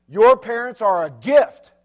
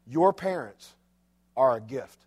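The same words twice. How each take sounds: First: Your parents are a gift, each word slow and weighted; slow stressed repeat. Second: Said in the usual way. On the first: Shown as a demonstration. Preacher repeating the key line to the congregation, slow and stressed. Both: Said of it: "Let me say it again".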